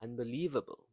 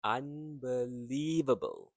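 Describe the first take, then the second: First: "unbelievable" in one quick run, still stressed on "lie"; said quickly. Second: "unbelievable" slowly, with "lie" stressed and held long; prolonged stressed syllable. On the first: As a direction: say "unbelievable" briskly without breaking it up. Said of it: "You have to say it quickly". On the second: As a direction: draw out the third syllable of "unbelievable". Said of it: "stressed and prolonged". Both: Shown as a demonstration.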